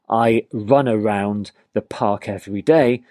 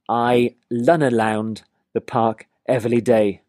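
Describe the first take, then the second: First: The R sounds are clear English R sounds. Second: The R sounds come out sounding like L. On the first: The speaker calls it right. "So instead of saying" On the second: The speaker calls it wrong. "they're more likely to say"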